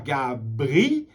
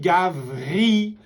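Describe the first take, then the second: First: The second consonant is a b sound. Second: The second consonant is a v sound. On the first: The speaker calls it wrong. "on ne dit pas Gabri" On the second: The speaker calls it right. "mais on dit Gavri"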